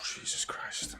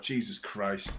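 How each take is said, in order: First: Real whisper after a long breath out; whispered relief. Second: Soft, falling exclamation, still voiced; quiet relief. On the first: Fan after a penalty scare, whispered relief. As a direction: breathe it out with no voice, shaken. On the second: Fan reacting to the offside flag, quiet relief. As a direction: let it drop softly under the commentary. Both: Real, not acted.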